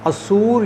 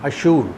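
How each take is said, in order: First: The middle consonant is a plain 's' sound. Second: The middle consonant is an 'sh' sound. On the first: This is the Arabic and Urdu form of the name. "हमारे अरबी और उर्दू में लफ्ज़ सीन इस्तेमाल होता है" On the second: This is the Hebrew form of the name. "वहाँ पर सीन की जगह शीन बोला जाता है"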